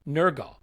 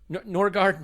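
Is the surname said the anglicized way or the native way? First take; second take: native; anglicized. First: The surname is said the native way. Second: The surname is said the anglicized way. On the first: This is the reportedly correct pronunciation. "is what I'm reliably told is how you pronounce that" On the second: This is the speaker's own easier version. "I'm going to call him Norgard"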